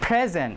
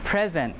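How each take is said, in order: First: The stress is on the first syllable. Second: The same.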